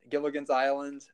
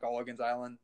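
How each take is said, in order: First: The first vowel sounds like 'gill'. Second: The first vowel sounds like 'gull'. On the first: The speaker calls it right. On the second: The speaker calls it wrong. "not Gulligan's Island"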